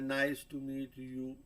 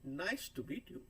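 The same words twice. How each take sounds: First: The end slows down abruptly. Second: The end slows slightly as the pitch falls.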